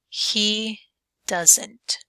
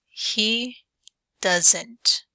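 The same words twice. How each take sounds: The two takes are said the same way.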